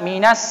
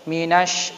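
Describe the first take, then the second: First: The word ends with a plain s sound. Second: The word ends with an sh sound. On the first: The speaker calls it wrong. "jangan dibaca minas" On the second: The speaker calls it right. "tapi minash"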